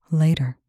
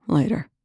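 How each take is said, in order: First: A firm, falling warning on Later. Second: Said in the usual way. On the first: A narrator's reading. Medic warning colonel she will return to it, warning. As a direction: make Later sound like a threat. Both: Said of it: "The word hit more like a warning".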